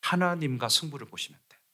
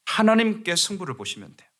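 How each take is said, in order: First: Said in the usual way. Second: Preacher driving the point home on 하나님께; emphatic restatement. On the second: Shown as a demonstration. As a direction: press hard on 하나님께, then settle down.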